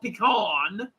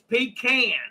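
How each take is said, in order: First: The last syllable sounds like 'cahn'. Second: The last syllable sounds like 'can'.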